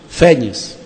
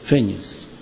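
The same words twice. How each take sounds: First: The stressed vowel is open. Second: The stressed vowel is closed. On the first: This is how it is said in Portugal. "eles pronunciam com timbre aberto" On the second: This is how it is said in Brazil. "Nós pronunciamos fênix"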